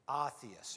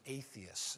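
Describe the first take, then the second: First: The word is said in a less usual pronunciation. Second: The word is said in its usual pronunciation.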